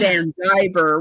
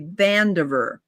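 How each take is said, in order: First: It sounds like two separate words. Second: It sounds like one single name. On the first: The speaker calls it wrong. "We don't say" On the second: The speaker calls it right. "we say Vandiver"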